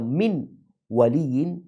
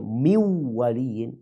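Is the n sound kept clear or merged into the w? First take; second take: clear; merged. First: The n is pronounced clearly before the w. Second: The n merges into the following w sound. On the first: "Dia baca min waliyin" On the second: "dia tidak membaca mi waliyin"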